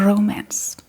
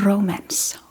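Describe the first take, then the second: Both takes have the same delivery.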